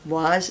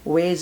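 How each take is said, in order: First: It is said with a British accent. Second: It is said with an American accent.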